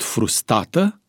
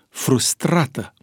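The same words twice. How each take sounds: First: The second r sound is dropped from the word. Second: The second r sound is clearly pronounced. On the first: The speaker calls it wrong. "nu din pricina frustrării pronunța ea greșit" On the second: The speaker calls it right. "Corect era dacă spunea"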